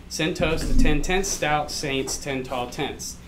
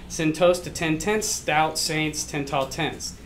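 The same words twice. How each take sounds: Both takes have the same delivery.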